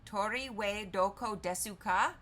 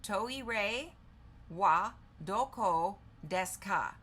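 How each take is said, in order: First: "Tori we doko desu ka" run together as one question; "Tori we doko desu ka" in one careful, tentative run; combined pronunciation. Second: "Toire wa doko desu ka" word by word with pauses; "Toire ... wa ... doko ... desu ka", each part separate; broken-down pronunciation. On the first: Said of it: "When combined, it's pronounced as". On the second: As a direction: sound out "Toire wa doko desu ka" slowly, piece by piece. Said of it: "here's the breakdown of the pronunciation". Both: Shown as a demonstration.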